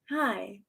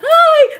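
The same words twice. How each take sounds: First: It has subtle, light energy. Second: It has exaggerated, bouncy energy.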